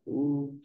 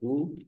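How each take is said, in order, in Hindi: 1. इस स्वर को तीन मात्रा जितना बोला जाता है। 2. इस स्वर को एक ह्रस्व मात्रा जितना बोला जाता है। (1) "प्लुत" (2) "ह्रस्व"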